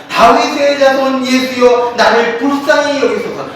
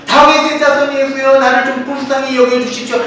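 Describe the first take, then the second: First: Crying out to Jesus. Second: Crying out again. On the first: Blind beggar calling to passing Jesus, mild mock cry. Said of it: "막 소리쳐 외-, 외쳤습니다". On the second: Beggar ignoring the crowd, calling Jesus again, mild mock cry. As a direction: plead over the crowd, lightly acted. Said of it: "계속해서 시끄럽게 막 떠듭니다". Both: Retold or imitated.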